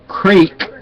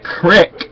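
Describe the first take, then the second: First: The vowel is a long 'ee' sound. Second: The vowel is a short 'i' sound. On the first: The speaker calls it right. "creek, not crick" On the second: The speaker calls it wrong. "not crick"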